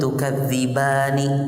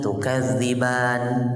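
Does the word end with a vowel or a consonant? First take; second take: vowel; consonant. First: The final vowel is pronounced at the end. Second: The final vowel is dropped at the end. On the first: The reading continues without stopping. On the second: The reader stops on this word.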